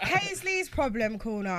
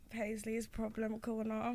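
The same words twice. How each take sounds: First: It is said in a confident, bold way. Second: It is said in a timid, unsure way.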